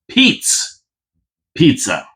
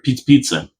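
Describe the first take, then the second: First: The name is said slowly and clearly. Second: The name is said quickly, running together. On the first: "I got to say it slower" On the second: "it always sounds like Pizza Pizza"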